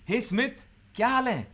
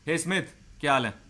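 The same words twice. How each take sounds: First: It sounds warm, rising, rapport-seeking. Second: It sounds cold, rapport-breaking.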